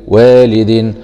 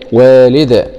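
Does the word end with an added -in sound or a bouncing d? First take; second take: -in sound; bouncing d. First: The word ends with an added -in sound. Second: The word stops on a bouncing final d. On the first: "دال كسرتين دين والد" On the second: "نقف عليها بالسكون العارض مع قلقلة الدال"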